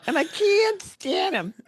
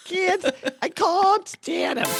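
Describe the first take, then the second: First: Very high, slow, screechy-diva caricature; hammed-up movie diva impression; Lena Lamont. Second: Very high, drawn-out diva caricature with "can't" as "cahn't"; laughing, hammed-up elocution attempt; Lena Lamont. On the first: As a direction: draw out "can't" in a squeaky put-on voice. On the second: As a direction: stretch it into an overdone "cahn't". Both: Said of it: "It's like Lena Lamont".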